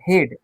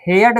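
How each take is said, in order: First: The word is said as one syllable. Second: The word is split into two syllables. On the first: The speaker calls it right. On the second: The speaker calls it wrong.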